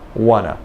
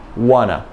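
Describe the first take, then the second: First: The T sounds drop and the vowel is reduced. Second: The T sounds drop and the vowel is reduced.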